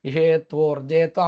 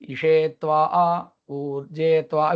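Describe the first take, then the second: First: The phrases flow together without any break. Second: The phrases are said separately with a break. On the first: This is continuous recitation. The speaker calls it right. "அப்படின்னு சொன்னாதான் Samhita" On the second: This is not continuous recitation. The speaker calls it wrong. "இப்படின்னு சொன்னா அது கிடையாது"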